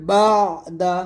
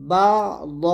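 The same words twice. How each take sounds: First: বা, then light open দা; thin dal. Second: বা, then heavy rounded দ; thick dad. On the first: Teacher giving the light example, বা দা with thin D. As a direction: keep দা thin after বা. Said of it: "দালটা হবে পাতলা". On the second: Teacher giving the heavy example, বা দ with thick D. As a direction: thicken দ after বা. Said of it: "দদ মোটা হবে". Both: Shown as a demonstration.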